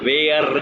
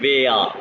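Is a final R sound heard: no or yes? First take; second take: yes; no. First: The word ends with an R sound. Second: The word ends without an R sound. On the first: The speaker calls it wrong. "वेयर नहीं कहना" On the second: The speaker calls it right. "आर को मैंने साइलेंट कर दिया"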